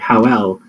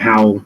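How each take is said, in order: First: The word is said as two syllables. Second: The word is said as one syllable. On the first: "so it would take up two syllables" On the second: "so it's a syllable"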